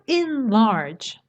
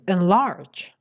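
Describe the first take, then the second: First: A pause splits the word after its first syllable. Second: It is one unbroken word, stressing the second syllable. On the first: The speaker calls it wrong. "It's not enlarge" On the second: The speaker calls it right. "The stress is on the second syllable and there's no spaces"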